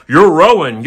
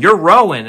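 First: Loud, high mock Irish line; imitating Irish film dialogue. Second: Loud, high mock Irish repeat; imitating Irish film dialogue. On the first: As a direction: ham up a thick Irish accent. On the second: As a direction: echo it in a thick Irish accent. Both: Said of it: "then they're going".

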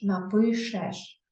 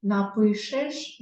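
First: "напишеш" very slow with final еш, falling; sounded-out е ending. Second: "Напишеш" very slow, left rising as the first option; sounded-out ending. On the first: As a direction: draw out each syllable of "напишеш", tune down at the end. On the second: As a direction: draw out each syllable of "Напишеш", tune up at the end. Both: Shown as a demonstration. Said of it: "Тому ми напишемо букву".

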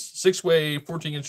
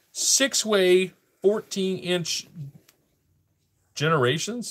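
First: Said in the usual way. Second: "Six-way, fourteen inch" slow and higher; reading off a label. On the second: Real, not acted. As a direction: draw out "Six-way, fourteen inch" as you decipher it. Reads item's label, then repeats it.

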